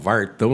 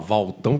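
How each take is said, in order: First: An R sound comes before the 't'. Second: An L sound comes before the 't'. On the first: The speaker calls it right. "que a gente fala Vartão" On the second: The speaker calls it wrong. "não é para falar Valtão, que não tem graça"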